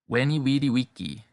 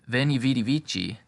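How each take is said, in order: First: It uses the restored classical Latin pronunciation. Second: It uses the ecclesiastical Latin pronunciation. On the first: "This is the restored classical pronunciation" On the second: "that's the ecclesiastical pronunciation"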